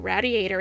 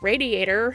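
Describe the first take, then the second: First: It is said in a Philadelphia accent. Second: It is said in a standard accent. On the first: "sometimes I feel like I have an accent, like I say radiator" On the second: "instead of radiator"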